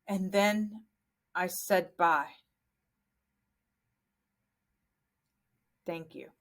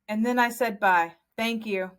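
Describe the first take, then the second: First: A pause comes before thank you. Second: Thank you follows bye with no pause.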